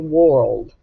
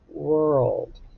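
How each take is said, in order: First: The vowel sounds like 'or' in 'for'. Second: The vowel sounds like 'er' in 'her'. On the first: The speaker calls it wrong. "it doesn't make the or sound. We don't say world" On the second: The speaker calls it right. "we say world. It's a I R, E R, U R sound"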